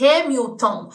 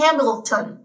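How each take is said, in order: First: HAMILTON with the L turned into a U, Brazilian style; Portuguese-style L. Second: HAMILTON with a clear English L, not a U. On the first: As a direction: say Hamilton as "Hamiuton". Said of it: "com a pronúncia do português do L". (Hamilton com L de português, som de U) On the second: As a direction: keep the L sound inside Hamilton. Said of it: "em inglês é esse L". (Hamilton com o L do inglês) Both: Shown as a demonstration.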